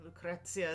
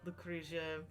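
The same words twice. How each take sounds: First: The name is said the Italian way. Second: The name is said the English-speaking way. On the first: "probably the proper Italian way to say it" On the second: "we say Lucrezia"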